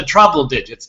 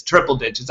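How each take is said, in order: First: Trouble digits, a tongue-slip for triple. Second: Said in the usual way. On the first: Real, not acted. Podcaster counting fans trips into trouble digits. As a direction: says trouble digits by mistake.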